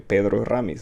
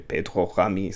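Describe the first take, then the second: First: The name is said the Spanish way. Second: The name is said the Belgian way. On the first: "that looks like a Spanish name. I want to say" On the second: "if he's Belgian, then I would say"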